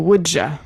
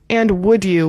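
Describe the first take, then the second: First: The word 'you' is reduced to 'ya'. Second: The word 'you' is said in full.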